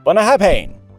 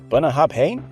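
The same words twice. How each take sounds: First: The final syllables are said strongly. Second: The final syllables are said weakly. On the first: The speaker calls it right. "That's great" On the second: The speaker calls it wrong. "You're close, but don't be afraid to really lean into those final syllables"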